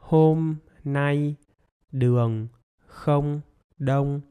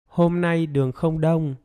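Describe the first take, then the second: First: It is spoken very slowly, word by word. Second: It is spoken smoothly at normal conversational speed. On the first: "I'm gonna say the sentence very, very slowly" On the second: "Now with normal speed"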